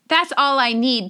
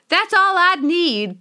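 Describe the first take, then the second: First: It is said in her normal accent. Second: It is said in a put-on character accent.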